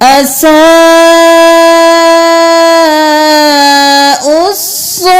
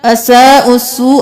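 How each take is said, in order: First: The final vowel is stretched out long. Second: The final vowel is said quickly and short. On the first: The speaker calls it right. "पांच उंगली के बराबर यहां पे खींचना है" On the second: The speaker calls it wrong. "जल्दी से अदा नहीं करना, असा उसू ऐसे नहीं करना"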